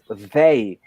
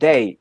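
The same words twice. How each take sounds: First: The word begins with a soft th sound. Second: The word begins with a hard d-like sound. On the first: The speaker calls it right. "is they" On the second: The speaker calls it wrong. "This is not they"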